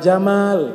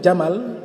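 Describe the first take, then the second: First: The second vowel is held long. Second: The second vowel is kept short. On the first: It means beauty. The speaker calls it right. "Kalau kita bacanya panjang" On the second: It means camel. The speaker calls it wrong. "kalau dibaca pendek huruf mimnya"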